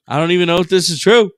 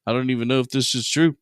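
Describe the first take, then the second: First: Louder, fast. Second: Said in the usual way. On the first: Real, not acted. Louder second take.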